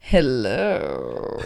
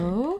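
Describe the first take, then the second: First: It is said in an overly seductive way. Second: It is said in a plain, friendly way.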